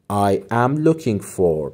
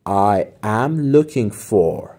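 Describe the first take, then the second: First: Slow softer repeat. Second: Slow model phrase. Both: Shown as a demonstration.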